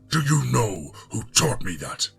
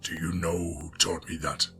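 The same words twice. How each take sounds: First: It is said loudly with a growling voice. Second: It is said with moderate, firm intensity.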